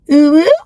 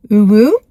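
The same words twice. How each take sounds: First: Higher pitched hoot, pushed up; a hooting call overshooting into a high squeal; mock call, too high. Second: Mock call, too low. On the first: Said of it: "it's gotta be higher pitch". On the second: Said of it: "No, it's gotta be higher pitch".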